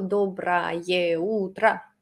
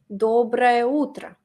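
First: Every syllable is said slowly and fully. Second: It is said quickly with vowels run together. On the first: "Yo no digo dobra ye utra, así" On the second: "Yo digo algo rapidito"

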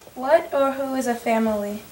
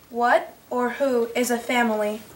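First: It is read at normal speed. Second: It is read more slowly.

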